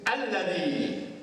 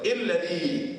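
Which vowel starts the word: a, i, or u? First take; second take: a; i. First: The word begins with an a vowel. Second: The word begins with an i vowel. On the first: The speaker calls it right. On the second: The speaker calls it wrong.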